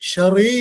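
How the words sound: The syllables are joined into one smooth word. "ഒരുമിച്ചാക്കി Sherry എന്ന് പറയാൻ"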